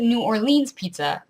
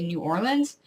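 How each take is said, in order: First: "New Orleans" ending in leens; "New Orleans Pizza" with or-leenz; New Orleens. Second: "New Orleans" ending in lins; "New Orleans" as or-linz; New Orlins. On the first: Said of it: "I always pronounced it". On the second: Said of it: "conditioned ... to say New Orleans". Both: Shown as a demonstration.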